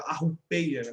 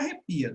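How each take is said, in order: First: It is said with a 'u' after the r sound. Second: It is said with an 'e' after the r sound. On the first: A playful, informal way of saying it. The speaker calls it wrong. "Mas eu gosto de falar arrupeia porque eu gosto" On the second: The standard form of the word. The speaker calls it right. "O correto é arrepia"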